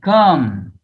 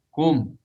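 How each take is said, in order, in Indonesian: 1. Vokalnya tidak dibulatkan, berada di antara a dan u. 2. Vokalnya adalah u yang jelas dengan bibir membulat. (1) "bilang kum itu tapi mulutnya tidak mencucu. Ini keliru" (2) "kum dengan memonyongkan, eee, bibir ya"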